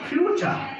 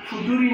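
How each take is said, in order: First: It starts with 'fyoo' and has a ch sound. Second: It starts with 'foo' and has a plain t sound. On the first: The speaker calls it right. "যখন IPA জানবো তখন বলবো ফিউচার" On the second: The speaker calls it wrong. "ফুটুরি না ফাটারি"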